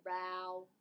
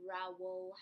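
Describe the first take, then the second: First: ROWELL said as one syllable, like "rowl"; first pronunciation. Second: ROWELL split in two, like "row-wool"; alternative pronunciation. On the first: Telling viewers how she said the author's name, Rowell as one syllable. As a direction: say "Rowell" run together as one beat. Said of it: "however you pronounce it". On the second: Correcting herself on the author's name, Rowell in two syllables. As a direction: say "Rowell" in two rounded syllables, "rau-wul". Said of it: "instead of Rowell". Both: Shown as a demonstration.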